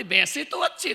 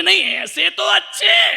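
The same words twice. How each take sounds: First: Said in the usual way. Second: High, loud, slow whining sing-song; hammed-up wife. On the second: Wife answering the monk in a high hammed-up whine. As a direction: whine it theatrically, drawn out.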